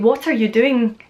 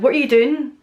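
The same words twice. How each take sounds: First: The T in 'what' is clearly pronounced. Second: The T in 'what' is a glottal stop. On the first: "They wouldn't say" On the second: "the majority of people I know as well would say"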